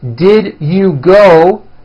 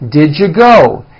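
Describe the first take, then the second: First: Each word is said fully and separately. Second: The words are squeezed into a reduced form.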